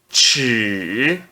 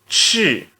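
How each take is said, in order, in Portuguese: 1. É dito com o terceiro tom. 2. É dito com o quarto tom. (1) "No terceiro tom" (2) "E no quarto tom"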